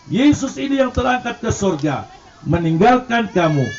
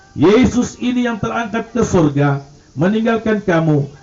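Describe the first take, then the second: The two takes are said the same way.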